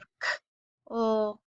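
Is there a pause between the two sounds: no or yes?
yes. The two sounds are said with a break between. The speaker calls it wrong. "instead of k, oh"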